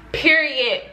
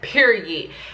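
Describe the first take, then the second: First: Said in a put-on imitation voice. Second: Said in the speaker's own natural voice.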